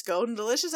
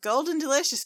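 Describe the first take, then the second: First: Calling Golden Delicious with a rising question. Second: High, louder call across the field; calling out a name. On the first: Still searching, calling the name as a question. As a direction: ask it, voice going up on Delicious. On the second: Searching for the cousin, calling his name loudly. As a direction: call the name out, falling at the end. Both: Acted. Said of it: "they're like".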